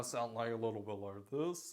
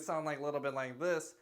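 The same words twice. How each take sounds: First: Low, soft, dropped-larynx tone; altered tone. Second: Softer tone, less deep; other tone. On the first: Coach showing control of tone, voice dropped low. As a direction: drop the voice down low and quiet. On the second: Coach showing the other tone on the same note, less low. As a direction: lift out of the low voice, keep it soft. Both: Shown as a demonstration. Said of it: "you have the ability to".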